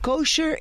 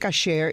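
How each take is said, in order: First: The first vowel sounds like 'o'. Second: The first vowel sounds like 'a'. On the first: This is the form used outside Spanish. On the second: This is the form used in Spanish. "Kosher en español es kasher. Se dice kasher"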